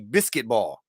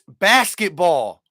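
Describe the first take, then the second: First: The first syllable sounds like 'bis', as in biscuit. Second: The first syllable sounds like 'bas', as in basket. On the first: The speaker calls it wrong. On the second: The speaker calls it right. "It's basketball"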